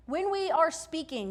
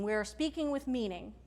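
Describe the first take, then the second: First: Are pushed higher and longer; stress on ARE. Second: Calm, meaningful emphasis on speaking; stress on SPEAKING. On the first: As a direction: lean on the word are. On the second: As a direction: land on the word speaking. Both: Shown as a demonstration.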